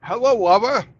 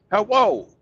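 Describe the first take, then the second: First: Hello, Wubba, loud and high with W for R; mock Japanese accent, loud. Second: Hello said as hawo with W for L, loud and high; mock Japanese accent. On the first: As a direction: imitate the businessmen mangling Roger. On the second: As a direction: imitate the businessmen. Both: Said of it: "they would say".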